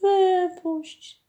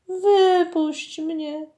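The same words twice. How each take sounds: First: "wypuść" even higher, falling away at the end; a last high plea, dropping down on "wypuść"; the mermaid's second, higher cry of "wypuść"; begging mermaid. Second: High, slow drawn-out plea from the mermaid; a captured mermaid begging to be freed. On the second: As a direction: plead "Wypuść mnie" high and slowly, stretching "wypuść". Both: A narrator's reading. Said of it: "błagało cudne zjawisko".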